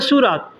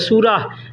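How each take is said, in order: First: The word ends with a t sound. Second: The word ends with an h sound. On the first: "photo कहना है तो कहते हैं सूरत" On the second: "last में ह का इस्तेमाल करेंगे"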